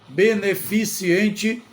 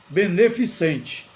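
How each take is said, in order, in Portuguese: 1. Um som extra 'ee' vem antes da terminação. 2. Nenhum som extra 'ee' vem antes da terminação. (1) "Beneficiente não existe neste caso" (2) "A palavra correta é beneficente. Não tem o i"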